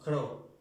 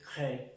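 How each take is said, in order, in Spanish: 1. La vocal suena como una 'o'. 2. La vocal suena como una 'e'. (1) "si dijéramos cro" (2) "esa E"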